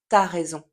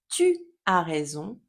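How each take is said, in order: First: 'Tu as' is shortened to 't'as'. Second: The word 'tu' is said in full. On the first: "va avoir tendance à se transformer en t'as raison" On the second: "Le tu de l'écrit"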